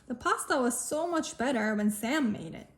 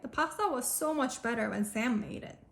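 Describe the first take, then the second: First: The word Sam carries strong extra stress. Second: The word Sam carries no extra stress.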